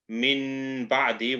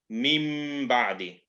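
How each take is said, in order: First: The first word ends with a clear n sound. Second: The first word ends with an m sound. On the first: The speaker calls it wrong. "we're not going to read it as" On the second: The speaker calls it right. "we're going to read it as"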